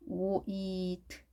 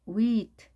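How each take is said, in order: First: "wheat" slowly in separate sounds, w-ee-t; sounded out. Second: Said in the usual way. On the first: Shown as a demonstration. Teacher shows how the word is built, "wheat" sounded out. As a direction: softly stretch "wheat" out sound by sound. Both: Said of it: "이렇게 스펠링 구성됩니다".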